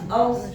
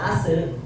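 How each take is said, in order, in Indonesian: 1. Huruf s berakhir bersih, tanpa vokal tambahan. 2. Huruf s berakhir dengan vokal pendek tambahan. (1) "as jelas ya" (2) "ada pengular ase kadang"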